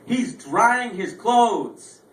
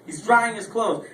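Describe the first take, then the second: First: "drying" stretched slowly and high; slow, high "drying", incredulous; slow emphatic repeat. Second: Said in the usual way. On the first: Real, not acted. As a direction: drag out "drying" in disbelief.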